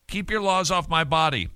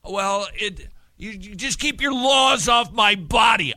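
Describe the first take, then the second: First: Said in the usual way. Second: Higher, louder mock yell of the slogan; hammed-up protester shouting; mock shouted slogan. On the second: Mocking pro-choice slogan.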